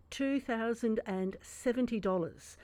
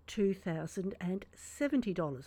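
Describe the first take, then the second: First: Slow for savouring. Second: Said in the usual way. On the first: Shown as a demonstration. Radio host repeats the tax saving for listeners, slowly savoured. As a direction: savour each word of the figure. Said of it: "I'll say that slowly so you can savour". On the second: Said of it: "I'll say that slowly".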